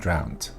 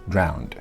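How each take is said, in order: First: The word ends with a t sound. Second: The word ends with a soft d sound. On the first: The speaker calls it wrong. "It is not drowned" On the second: The speaker calls it right. "It's definitely a D"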